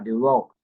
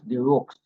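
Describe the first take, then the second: First: The name ends with a k sound. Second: The name ends with a ks sound. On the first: "or the rock" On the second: "It is not pronounced the rooks"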